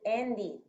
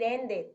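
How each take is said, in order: First: The ending vowel is an i sound. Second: The ending vowel is not an i sound. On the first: The speaker calls it right. "vamos a decir ended, la E va a sonar como una I" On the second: The speaker calls it wrong. "no vamos a decir ended"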